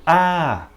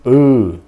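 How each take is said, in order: First: The vowel is said with an open sound. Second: The vowel is said with a closed sound. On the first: "A bem aberto, um som aberto" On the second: "um som mais fechado"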